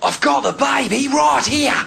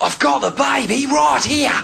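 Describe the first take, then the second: First: It is spoken in an Australian accent. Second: The same.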